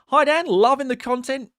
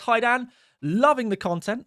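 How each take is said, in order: First: It is read in a put-on Australian accent. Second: It is read in the speaker's ordinary accent.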